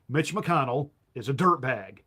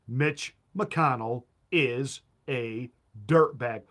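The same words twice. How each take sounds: First: The sentence is spoken at an ordinary speed. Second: The sentence is spoken slowly and deliberately.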